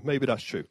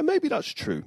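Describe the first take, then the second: First: Said in the usual way. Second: Mock agreement. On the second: Mock reply to own joke.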